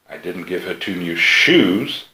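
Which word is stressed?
shoes. The word "shoes" carries the main stress. What she received was not shoes. "She's got something, and they came from me, but they're not shoes"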